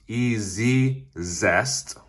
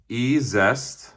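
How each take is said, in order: First: It is said with a doubled z, 'ee-zee-zest'. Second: It is said as two parts, 'ee-zest'. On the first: "I saw it pronounced E-Z-Zest, even though there's only one Z" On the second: "I saw them pronounce it E-Zest"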